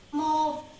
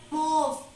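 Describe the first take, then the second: No difference in how they are said.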